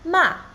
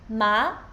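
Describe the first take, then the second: First: The pitch falls sharply from high to low. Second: The pitch rises from middle to high. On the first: "the fourth tone is sharp and falling" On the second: "So second tone goes up"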